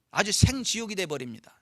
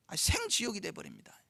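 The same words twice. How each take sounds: First: 생지옥이 hit firmly with a falling close; stress on 생지옥이. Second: 생지옥이 again but much softer, falling; quieter repeat. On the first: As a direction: lean on 생지옥이 and let it fall. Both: Shown as a demonstration.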